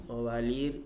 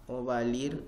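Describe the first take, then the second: Both takes have the same delivery.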